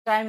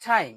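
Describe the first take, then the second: First: Said in the usual way. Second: "টাইম" with a puffed T, like ঠাইম; loud breathy T opening "টাইম"; aspirated T. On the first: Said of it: "টাইম না বলে". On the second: Shown as a demonstration. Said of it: "আমরা বলবো টাইম". ("টাইম"-এর ট মহাপ্রাণ)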